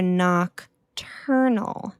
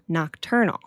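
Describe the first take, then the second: First: Slow careful word. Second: Nocturnal said clearly with a rise; stress on nocturnal. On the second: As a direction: teach the word nocturnal. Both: Shown as a demonstration. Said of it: "They are nocturnal, nocturnal".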